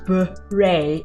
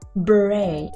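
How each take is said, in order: First: It is said in an American English way. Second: It is said in a British English way. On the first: "in American English" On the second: "in British"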